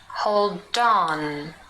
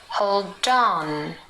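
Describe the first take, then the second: First: The d runs into on, like dawn. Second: The same.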